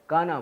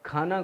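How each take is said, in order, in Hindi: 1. यह सादी k ध्वनि से शुरू होता है। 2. यह kh ध्वनि से शुरू होता है।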